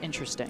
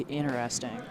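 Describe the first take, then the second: First: One syllable is dropped from the word. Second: Every syllable of the word is pronounced. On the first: This is the everyday way of saying it. "it's just interesting" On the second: The setting is formal. "if I'm in like a formal speaking place, I'm gonna say interesting"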